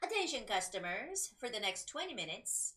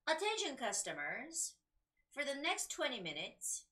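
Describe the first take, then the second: First: It is read at a faster pace. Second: It is read at a slow pace. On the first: "I'm going to speed up a little bit" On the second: "when I was reading this slowly"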